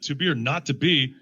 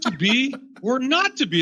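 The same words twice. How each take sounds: First: Said in the usual way. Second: High-pitched reading split after "be"; pause after BE. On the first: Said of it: "and they read". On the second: Shown as a demonstration. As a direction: lift "be" and "not", breaking the line between. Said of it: "your pause doesn't go at the same place".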